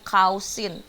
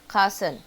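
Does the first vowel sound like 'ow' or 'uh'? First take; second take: ow; uh. First: The first vowel sounds like 'ow' in mouse. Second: The first vowel sounds like 'uh' in cup. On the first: The speaker calls it wrong. "yang bawah juga jadinya cousin, bukan ya" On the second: The speaker calls it right. "tapi eh"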